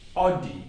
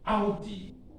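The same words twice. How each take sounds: First: The first vowel is the English 'aw' sound. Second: The first vowel is the German 'ow' sound. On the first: "We normally say Audi in English" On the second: "we say Audi in German"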